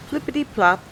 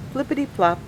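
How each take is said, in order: Both takes have the same delivery.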